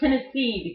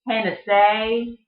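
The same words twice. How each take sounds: First: The vowels are short and plain. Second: The vowels are long and drawn out.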